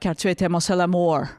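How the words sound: It is said with a put-on English accent.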